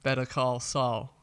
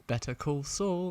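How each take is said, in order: First: "Better Call Saul" slow, with an American flapped T in "Better"; American accent. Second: British accent. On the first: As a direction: drawl the title like an American. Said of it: "easier to say it in an American accent". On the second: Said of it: "more of a rhythm to it than". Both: Shown as a demonstration.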